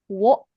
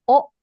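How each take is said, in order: First: It starts with a w sound before o. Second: It is a plain o vowel with no w. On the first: "can also be pronounced as wo" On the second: "or o"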